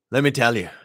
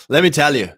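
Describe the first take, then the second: First: Said in the usual way. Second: Higher and louder, punching it up; excited emphasis; emphatic first take. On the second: Shown as a demonstration. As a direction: sell it with enthusiasm.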